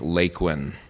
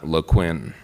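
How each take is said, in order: First: The stress is on the first syllable. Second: The stress is on the second syllable. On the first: The speaker calls it right. "Laquin is pronounced with accent on the first syllable" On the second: The speaker calls it wrong. "not LeQuinn. It's not a French word"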